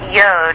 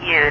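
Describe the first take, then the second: First: The vowel sounds like 'oh'. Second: The vowel sounds like 'oo'. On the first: The speaker calls it wrong. "I learned it wrong" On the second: The speaker calls it right. "It's actually Yud"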